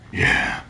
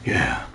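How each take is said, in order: First: A breathless, half-dead whisper of yeah; "Yeah." barely breathed out, like a beaten man; whispered "Yeah." with no voice behind it; feeble whispered yeah. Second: "Yeah." dropped deep, low and flat; "Yeah." mocking the hero's deep, low movie voice; gruff action-hero yeah. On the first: Retold or imitated. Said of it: "No way can I say "yeah" after that". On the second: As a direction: growl "Yeah." like a stone-cold killer. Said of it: "It opens with him punching a punching bag".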